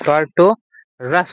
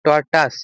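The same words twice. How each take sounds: First: টর্টোরাস with an R sounded in the final "-ras"; teacher modelling টর্টোরাস with its extra R; pronunciation demo. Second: টর্টাস said with no R in the second syllable; teacher modelling টর্টাস without the extra R; pronunciation demo. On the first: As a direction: say টর্টোরাস slowly, ending on "ras". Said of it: "উচ্চারণ হবে, রাস". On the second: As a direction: say টর্টাস in two syllables, ending "-tas". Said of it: "এটা উচ্চারণ হবে কি". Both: Shown as a demonstration.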